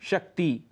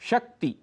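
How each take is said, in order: First: The final vowel is long. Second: The final vowel is short. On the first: The speaker calls it wrong. "हम कहते हैं शक्ति" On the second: The speaker calls it right. "शुद्ध उच्चारण है शक्ति। छोटा ई, जिसे कहते हैं हम ह्रस्व ई"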